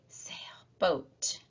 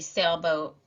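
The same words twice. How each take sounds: First: The first part is whispered, the second spoken aloud. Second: The whole word is spoken at normal volume. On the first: "we would whisper the part we want deleted" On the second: "instead of just saying the whole word"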